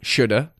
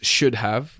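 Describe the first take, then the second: First: The words run together, with 'have' reduced to 'uh'. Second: Both words are said clearly, with 'have' fully pronounced. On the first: "It just kind of become shoulda" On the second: "where we always try and enunciate, those words"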